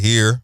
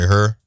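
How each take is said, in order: First: The vowel sounds like 'ear'. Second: The vowel sounds like 'er'. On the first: This is how people elsewhere say it. "We don't say here" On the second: This is how locals say it. "We say her"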